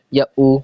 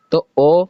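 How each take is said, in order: First: او said as a long oo, like "food"; long u vowel. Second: او said as a long rounded o, like "go"; long o vowel. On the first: Teacher giving children the oo reading of او. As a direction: round the lips into oo for او. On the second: Teacher showing children the o sound of او. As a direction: stretch او out as a clear o sound. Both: Shown as a demonstration. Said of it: "او پڑھنا ہے یا او پڑھنا ہے".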